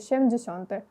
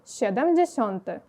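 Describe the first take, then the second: First: The word is shortened, dropping a syllable. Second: The word is said in full, every syllable kept. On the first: The speaker calls it wrong. "мої студенти роблять таку помилку" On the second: The speaker calls it right. "Виходить сєдемдзєсьонти"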